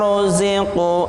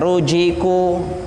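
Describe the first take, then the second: First: The middle consonant is a light 'z' sound. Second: The middle consonant is a 'j' sound. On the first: The speaker calls it right. "zi zi itu ringan, lebih ringan daripada jim" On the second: The speaker calls it wrong. "Jangan sampai kita membacanya rujiku"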